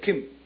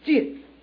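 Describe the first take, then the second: First: It starts with a hard k sound, ending in m. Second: It starts with a soft j sound, ending in n. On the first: This is the Southern Min reading. "但是福建话怎么念？浸就kim m 的音呢" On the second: This is the standard Mandarin reading. "我说普通话念浸"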